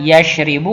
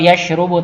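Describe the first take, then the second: First: The vowel after the r is i. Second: The vowel after the r is u. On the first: "tidak yashribu" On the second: "atau yashrubu"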